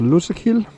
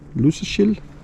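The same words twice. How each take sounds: First: The middle consonant is a plain k sound. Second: The middle consonant is softened toward sh.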